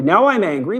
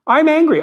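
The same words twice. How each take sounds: First: Said in the usual way. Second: Higher, louder mock outburst of anger; mock angry. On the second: Husband mock-angry at his wife over a remark, higher and louder. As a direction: pretend to flare up at the wife.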